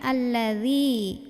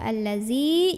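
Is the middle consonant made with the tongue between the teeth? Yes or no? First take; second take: yes; no. First: The tongue tip touches the upper front teeth. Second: The tongue tip does not touch the upper teeth. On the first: The speaker calls it right. "Ujung lidahnya melet dikit ketemu ujung gigi" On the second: The speaker calls it wrong. "jangan dibaca allazi"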